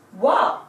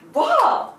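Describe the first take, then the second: First: The syllable begins with a w sound. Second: The same.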